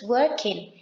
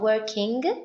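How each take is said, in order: First: The word ends without a hard G sound. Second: The word ends with a hard G sound. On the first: The speaker calls it right. "the G at the end. It's not pronounced" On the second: The speaker calls it wrong. "It's not working"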